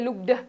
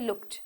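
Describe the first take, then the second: First: The ending is said as an extra syllable. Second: The ending is said as a plain t sound. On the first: The speaker calls it wrong. "we don't say looked" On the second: The speaker calls it right. "T sound"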